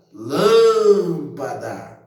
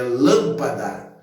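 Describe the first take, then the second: First: Lâmpada with a long drawn-out, louder LÂM; calling out the word. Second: Said in the usual way. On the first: Shown as a demonstration. Teacher calls the word to show the tonic syllable, stretching LÂM in lâmpada. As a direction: call lâmpada, holding the first syllable lâm. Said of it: "quando eu chamei a palavra". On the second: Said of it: "eu chamo a palavra".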